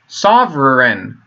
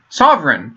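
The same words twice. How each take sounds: First: Sovereign drawn out slowly as "sov-ren", just two syllables; slow, deliberate sovereign. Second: Said in the usual way. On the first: Shown as a demonstration. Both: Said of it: "two syllables".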